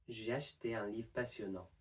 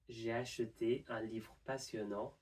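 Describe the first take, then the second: First: The middle e and final re are dropped. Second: The middle e and final re are pronounced.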